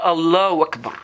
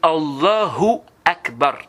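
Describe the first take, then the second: First: The 'hu' sound after 'Allah' is dropped. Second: The 'hu' sound after 'Allah' is clearly heard. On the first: The speaker calls it wrong. "C'est pas" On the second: The speaker calls it right.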